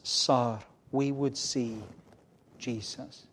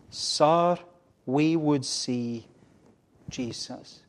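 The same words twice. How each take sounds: First: Said in the usual way. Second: Loud, drawn-out "Sir", dropping away on "Jesus"; emphatic reading. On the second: Acted. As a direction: weigh "Sir, we would see" slowly, then soften "Jesus". Repeats pulpit words with more force.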